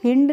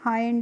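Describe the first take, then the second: First: The vowel sounds like short 'ih'. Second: The vowel sounds like 'eye'. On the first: The speaker calls it wrong. "इसको हिंड नहीं पढ़ते हैं" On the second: The speaker calls it right. "H I N D को पढ़ते हैं हम हाइंड"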